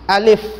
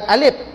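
First: The word ends with an f sound. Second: The word ends with a p sound. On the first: The speaker calls it right. "bukan alif lam, alif" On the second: The speaker calls it wrong. "Alif dia bukan alif. Dia bukan pa"

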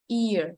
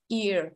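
The two takes are said the same way.

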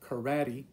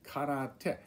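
First: It is said with an American English pronunciation. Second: It is said with a Japanese pronunciation. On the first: The speaker calls it wrong. "It's not karate" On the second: The speaker calls it right. "but karate"

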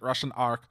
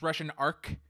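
First: It is said quickly in a Russian accent. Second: It is said in a plain accent.

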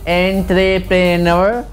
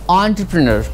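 First: The word is pronounced following its spelling. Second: The word is pronounced unlike its spelling. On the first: The speaker calls it wrong. "It's not entrepreneur" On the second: The speaker calls it right. "Pronunciation is totally different with the spelling"

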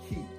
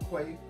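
First: The name sounds like the word key. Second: The name starts with a kw sound. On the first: The speaker calls it right. "they're by the brand Key" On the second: The speaker calls it wrong. "I've been saying it wrong"

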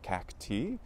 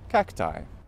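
First: The final vowel follows the Latin pronunciation. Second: The final vowel follows the usual English pronunciation. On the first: "the correct Latin pronunciation of the plural" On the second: "we normally pronounce as I"

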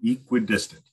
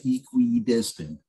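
First: One middle syllable is reduced and said lightly. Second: Every syllable is strongly and carefully enunciated. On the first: "So I just try to minimize the what is that, the third syllable?" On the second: "people tend to like really enunciate it and say equidistant"

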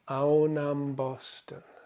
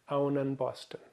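First: The word before Boston ends in an m sound. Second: The word before Boston ends in an n sound. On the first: The speaker calls it right. "My mouth is having to do less work to say Aunam Boston" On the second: The speaker calls it wrong. "that's the incorrect way of saying it"

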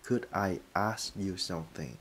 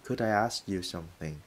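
First: The words are said separately with pauses. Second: The words are joined smoothly together.

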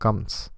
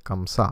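First: The name ends on a consonant, without a final vowel. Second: The name ends with a final vowel sound.

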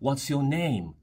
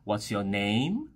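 First: The voice falls at the end. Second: The voice rises at the end, sounding friendly. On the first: "最后是一个降调。" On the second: "用一种比较有亲和力的方法来问出这句话"

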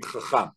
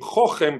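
First: The stress falls on the last syllable. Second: The stress falls on the first syllable. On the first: This is how Israelis actually say the word. The speaker calls it right. "באמת אומרים חכם" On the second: This is not how Israelis say the word. The speaker calls it wrong. "לא אומרים חוכם"

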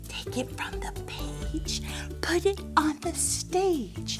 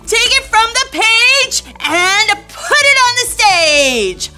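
First: It is said secretively, like a secret. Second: It is said with great excitement.

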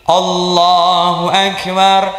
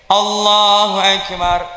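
No difference in how they are said.

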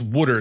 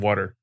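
First: The word has a New Jersey accent. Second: The word has a standard accent. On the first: "she says water" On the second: "instead of water"

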